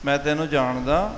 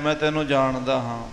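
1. ਇਹ ਪ੍ਰਸ਼ਨਵਾਚਕ ਲਹਿਜੇ ਵਿੱਚ ਕਿਹਾ ਗਿਆ ਹੈ। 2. ਇਹ ਸਾਧਾਰਨ, ਸਪਾਟ ਬਿਆਨ ਵਜੋਂ ਕਿਹਾ ਗਿਆ ਹੈ। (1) "ਪ੍ਰਸ਼ਨਵਾਚੀ" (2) "ਸਮਾਨਿਆ"

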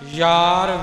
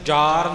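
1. ਇਹ ਸ਼ਬਦ y ਦੀ ਆਵਾਜ਼ ਨਾਲ ਸ਼ੁਰੂ ਹੁੰਦਾ ਹੈ। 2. ਇਹ ਸ਼ਬਦ j ਦੀ ਆਵਾਜ਼ ਨਾਲ ਸ਼ੁਰੂ ਹੁੰਦਾ ਹੈ। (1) "ਯਾਰ ਵੇ ਜਈਏ ਦੇ ਨਾਲ ਹੈ" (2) "ਇਹਨੂੰ ਯਾਰ ਨਹੀਂ ਬੋਲਣਾ"

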